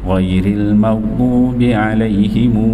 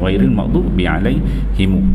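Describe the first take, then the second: First: The final m is followed by an added u vowel. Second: The word ends on a plain m sound. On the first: "menyambungkan waw tu" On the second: "kalau dia waqaf dia tak ada bunyi himu tu"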